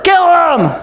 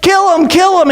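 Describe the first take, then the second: First: High, forceful mob yell; louder shout. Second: Chanted, high, repeated mob cry; insistent mock mob chant; crowd chant. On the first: Acted. Crowd drowning out Pilate's question, louder shout. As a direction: push it out as a louder demand. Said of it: "Just louder". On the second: Chanted, crowd answering Pilate, insistent shout. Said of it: "Just louder, kill him".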